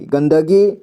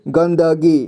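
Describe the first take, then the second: First: Said in the usual way. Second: गंदगी split as "gan-da-gee"; गंदगी read piece by piece; sounded out. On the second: Shown as a demonstration. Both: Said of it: "इसे क्या पढ़ेंगे?".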